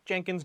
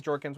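First: "Jenkins", JEN-kins in place of Jorkins; misread name. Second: "Jorkins", JOR-kins in place of Jenkins; correct name. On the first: Shrugging off the misread name, "Jenkins" with JEN. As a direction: say "Jenkins" with a JEN first syllable. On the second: Correcting the misread name, "Jorkins" with JOR. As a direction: say "Jorkins" with a JOR first syllable. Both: Shown as a demonstration. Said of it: "I seriously read it as Bertha Jenkins".

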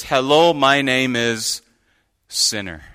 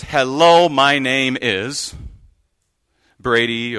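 First: Solemn name-tag confession; name tag read. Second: Cheery name-tag greeting; name tag read. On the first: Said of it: "that says". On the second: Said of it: "and it says". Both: Shown as a demonstration.

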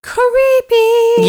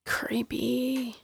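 First: High, eerie spooky voice. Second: Breathy ghostly whisper; spooky whisper. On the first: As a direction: wail it like a ghost. Spooky reaction to ghost story. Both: Acted.

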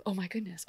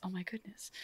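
First: Quiet gasp, half voiced; hushed gossip in the chambers; soft hushed aside. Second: A breathy whispered gasp of gossip; scandalised whisper to a husband. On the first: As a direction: murmur it behind a hand. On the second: Retold or imitated. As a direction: whisper it to your husband in the chambers. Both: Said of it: "whispering with your husband".

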